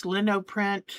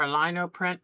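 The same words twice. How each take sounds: First: "Linoprint" with a short i, LIN-oh; first pronunciation variant. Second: "Linoprint" with a long i, LINE-oh; alternative pronunciation. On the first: Showing viewers a new craft, first pronunciation variant. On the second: Unsure of the craft's name, alternative pronunciation. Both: Real, not acted. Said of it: "not sure still how to pronounce it".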